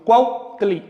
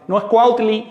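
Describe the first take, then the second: First: "cuautli" slowed with a glottal catch after cuau; careful saltillo. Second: Said in the usual way. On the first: Shown as a demonstration. Teacher correcting the class, "cuautli" slow with a glottal stop. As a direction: break "cuautli" with a glottal stop before tli. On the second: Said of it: "sino cuautli".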